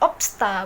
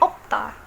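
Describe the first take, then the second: First: An s sound is heard before the t. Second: No s sound is heard before the t. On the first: The speaker calls it wrong. "bukannya opsta, bukan" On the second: The speaker calls it right. "tapi hanya opta"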